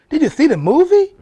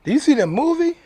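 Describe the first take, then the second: First: Loud, high challenge; shouted question. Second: Loud, high repeated question; louder repeat. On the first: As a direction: yell it at the audience, much higher. Challenging viewers about the movie. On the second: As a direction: call it out again, pressing them. Repeats challenge after long pause. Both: Acted.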